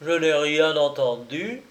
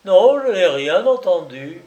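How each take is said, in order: First: Tragic calm. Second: Raised, higher, firm denial; louder repeat. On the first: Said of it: "avec le calme d'un personnage de tragédie". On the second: The narrator repeats his denial louder before the man's fury. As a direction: say it again, louder and firmer. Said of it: "je répétais plus haut". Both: Acted.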